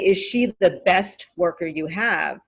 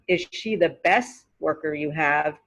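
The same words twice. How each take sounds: First: The T at the end of best is pronounced. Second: The T at the end of best is dropped. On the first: "It's correct. It's okay to say best" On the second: "It just sounds more natural, it sounds more native"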